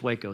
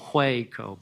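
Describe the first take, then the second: First: The word starts without an h sound. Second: The word starts with a clear h sound. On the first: "I've been s- schooled and instructed it's Waco" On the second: "I might emphasize the H there"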